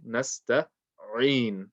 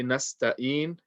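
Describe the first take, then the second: First: "nasta'in" slowly, with a clearly pronounced ain. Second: "nasta'in" with a hamza in place of the ain. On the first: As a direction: split "nasta'in" before a strong, clear ain. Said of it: "with the ain nice and clear". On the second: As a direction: mispronounce "nasta'in" with a plain 'een' ending, no ain. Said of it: "Een is wrong because you're not reading ain". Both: Shown as a demonstration.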